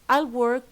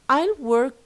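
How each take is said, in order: Both takes have the same delivery.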